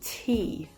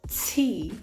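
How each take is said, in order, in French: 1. Plus rapide, avec seulement un léger sifflement après le t. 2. Lent, avec un fort sifflement semblable à un s après le t. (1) "le se est beaucoup moins prononcé" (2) "ça, c'est quand on le fait vraiment doucement"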